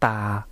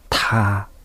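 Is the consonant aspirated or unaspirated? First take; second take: Unaspirated; Aspirated. First: The t is said without a puff of air. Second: The t is said with a puff of air. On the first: "タの場合は無気音だと" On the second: "有気音だと"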